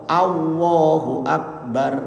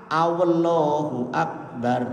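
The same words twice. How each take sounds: No difference in how they are said.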